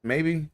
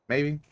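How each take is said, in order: Both takes have the same delivery.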